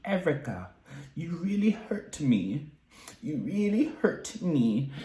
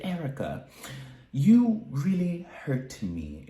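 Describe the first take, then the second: First: High, slow and hurt, a soft plea; Dorit impression. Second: High, slow, wounded Dorit voice; Dorit impression. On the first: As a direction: act out Dorit's wounded complaint. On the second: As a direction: play Dorit, hurt and pleading. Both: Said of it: "this is my best Dorit impression".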